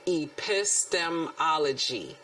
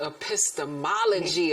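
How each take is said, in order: First: The word is said slowly and deliberately. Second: The word is said at normal speed.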